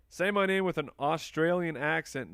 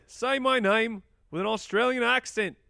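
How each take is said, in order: First: Said in the usual way. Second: High-pitched, loud mock-Australian; bad Australian accent. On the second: Shown as a demonstration. Host attempts a viewer's accent request, bad Australian accent. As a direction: put on a poor, exaggerated Australian accent. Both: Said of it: "Nah, that's not very good".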